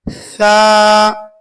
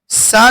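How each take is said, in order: First: The consonant is a th with tongue tip out. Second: The consonant is a plain hissing s. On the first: The speaker calls it right. "जुबान की अगला हिस्सा ऊपर वाले दांतों से लगाकर बाहर थोड़ा सा निकाल कर पढ़ेंगे" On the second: The speaker calls it wrong. "सा नहीं पढ़ेंगे इसको"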